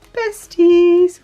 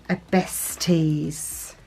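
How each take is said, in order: First: Besties popped out high and loud; playful high loud Besties; sing-song exclamation. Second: Said in the usual way. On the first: Shown as a demonstration. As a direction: announce the word like a cheer. Sticker name said with flourish.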